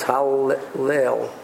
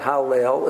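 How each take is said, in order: First: The middle L sound is doubled across syllables. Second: The middle L sound is short and single. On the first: The speaker calls it right. "There's a howl for the first because of Patach to Kazano, and there's a leil for the second" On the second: The speaker calls it wrong. "It's not ha-le-el"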